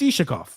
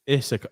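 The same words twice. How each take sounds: First: The middle sound is an 'sh' sound. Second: The middle sound is a plain 's', not 'sh'. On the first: "I'm pronouncing it the way I want to" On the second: "not with the sh. Pronounce it right"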